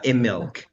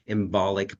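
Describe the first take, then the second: First: The word is said without any 'b' sound. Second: The word is said with a clear 'b' sound. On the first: The speaker calls it right. "Imilk actually" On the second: The speaker calls it wrong. "everyone spells it and pronounces it embolic"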